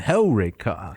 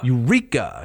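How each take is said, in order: First: The stress is on the first syllable. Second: The stress is on the second syllable. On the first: The speaker calls it right. "It goes on" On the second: The speaker calls it wrong. "They would put the emphasis on the penult"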